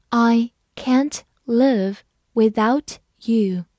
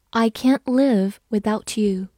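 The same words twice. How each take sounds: First: Slow, each word on its own; slow reading. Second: Said in the usual way. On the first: Shown as a demonstration. Teacher asking learners to follow along, slowly word by word. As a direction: lead a read-along, pausing between words. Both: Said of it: "好，跟着我慢慢来读".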